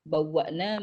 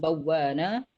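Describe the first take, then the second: First: A glottal stop is heard inside the word. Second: A long vowel replaces the glottal stop. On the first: "contohnya bawwa'na menjadi"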